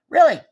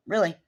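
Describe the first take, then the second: First: Really barked high and loud in disbelief; incredulous shouted Really; indignant loud Really. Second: Said in the usual way. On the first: Retold or imitated. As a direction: throw Really back at him, outraged. Retold argument with officer.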